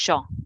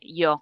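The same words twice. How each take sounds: First: The word begins with a strong 'sh' sound. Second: The word begins with a soft 'y' sound. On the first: This is how Buenos Aires speakers say it. "es muy pronunciado" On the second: This is how most of Latin America says it. "como el resto de Latinoamérica"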